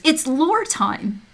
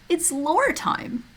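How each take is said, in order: First: High, slow, sung-out announcement; excited announcement. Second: High and slow, softer; softer lore call. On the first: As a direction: drawl it out like a show host. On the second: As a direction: croon it gently. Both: Shown as a demonstration.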